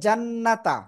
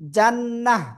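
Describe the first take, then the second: First: The word ends in a t plus vowel. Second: The word ends in a soft h sound. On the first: The reader joins this word to the next. "মিলিয়ে পড়লে জান্নাতা" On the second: The reader stops on this word. "জান্নাহ এমন হবে"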